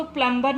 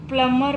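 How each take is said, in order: First: प्लम्बर said with the b sounded, plum-ber; teacher showing the wrong way: प्लम्बर with a clear b; wrong pronunciation. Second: प्लम्बर said with a silent b, plum-er; teacher modelling the right way: प्लम्बर without the b; correct pronunciation. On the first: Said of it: "हम इसको प्लम्बर नहीं पढ़ते". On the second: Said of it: "प्लम्बर पढ़ते हैं". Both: Shown as a demonstration.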